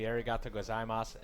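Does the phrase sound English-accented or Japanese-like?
English-accented. It is said with an English-style pronunciation. The speaker calls it wrong.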